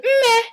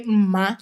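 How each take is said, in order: First: "Mme" called high with an eh vowel at the end. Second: "Mma" said low and plain, open a vowel at the end. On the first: Daughter calling her mom, "Mme" high and sweet. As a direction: call "Mme" up high, ending in eh. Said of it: "now I would say". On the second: Speaker demonstrating the usual call to mom, "Mma" low. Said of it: "you say". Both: Shown as a demonstration.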